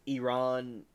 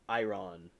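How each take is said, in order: First: Iran said ee-RON; one way people say it. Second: Iran said eye-RON; other way people say it. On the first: Showing chat how people say it, Iran as ee-RON. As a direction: say Iran with an "ee" at the start. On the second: Showing chat the alternative, Iran as eye-RON. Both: Shown as a demonstration. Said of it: "like how people say".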